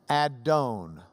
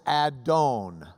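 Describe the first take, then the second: No difference in how they are said.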